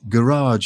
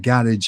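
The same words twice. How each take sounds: First: Garage is said with an American pronunciation. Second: Garage is said with a British pronunciation. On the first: This is how Americans say it. "as you Americans say" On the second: This is how the speaker personally says it. "as I say"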